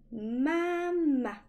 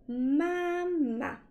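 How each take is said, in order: First: Mama with a high first ma and a short falling second ma; Mama with the second ma light and unstressed; Mama in natural Mandarin, second syllable neutral. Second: Mama with both syllables stressed and high; mama said like two separate first tones; mama, each ma given full weight. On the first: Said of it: "on prononce plutôt mama". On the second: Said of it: "on ne prononce pas mama". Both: Shown as a demonstration.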